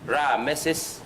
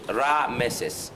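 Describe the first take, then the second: First: The name is said with three syllables. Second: The name is said with three syllables.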